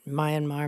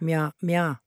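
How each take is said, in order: First: It is said in a typical English-speaker style. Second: It is said in Burmese style, two syllables. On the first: The speaker calls it wrong. "The way that English speakers mispronounce Myanmar" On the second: The speaker calls it right. "It's actually just two syllables in Burmese"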